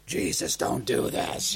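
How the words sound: It is said in a growling, satanic voice.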